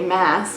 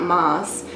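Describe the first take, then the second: First: The vowel sounds like the one in 'gas'. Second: The vowel sounds like the one in 'boss'. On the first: The speaker calls it right. "it's Sarah J. Maas" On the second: The speaker calls it wrong. "not Moss"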